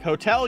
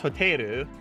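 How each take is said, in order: First: It ends with an English l sound. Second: It ends with an added ru syllable. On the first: Listeners might still understand it. "like hotel you might be able to get with" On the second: This is the expected local form. "but it's hoteru"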